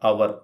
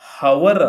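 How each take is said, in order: First: The word starts with a vowel, no h. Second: The word starts with an audible h sound. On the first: The speaker calls it right. "ಹವರ್ ಅಲ್ಲ. ಹ ಇಲ್ಲ" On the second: The speaker calls it wrong. "ಹವರ್ ಅಲ್ಲ"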